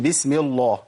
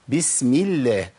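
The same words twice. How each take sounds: First: The L in Allah is heavy and thick. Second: The L in Allah is light and thin. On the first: The speaker calls it wrong. "ما قلتش بسم الله، ما ينفعش" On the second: The speaker calls it right. "كلمه الله وكلمه اللهم اذا كسر ما قبلها"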